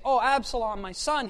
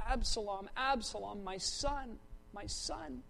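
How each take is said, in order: First: Said in the usual way. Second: Hushed grief, fading away on "my son"; doubled lament. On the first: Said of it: "David didn't say". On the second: Shown as a demonstration. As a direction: repeat each name softly, like a mourning father. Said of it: "the way you emphasize something is by doubling".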